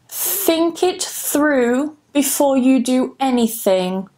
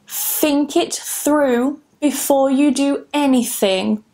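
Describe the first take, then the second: No difference in how they are said.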